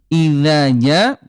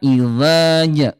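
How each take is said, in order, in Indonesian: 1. Konsonannya ringan, pangkal lidah diturunkan. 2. Konsonannya berat, pangkal lidah dinaikkan.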